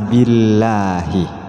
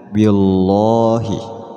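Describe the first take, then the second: First: The L sound is light and thin. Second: The L sound is heavy and thick. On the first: The speaker calls it right. "dibaca tipis apabila jatuh setelah harokat kasroh" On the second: The speaker calls it wrong. "tidak boleh dibaca"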